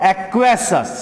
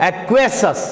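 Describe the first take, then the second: No difference in how they are said.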